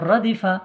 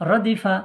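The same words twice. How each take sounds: No difference in how they are said.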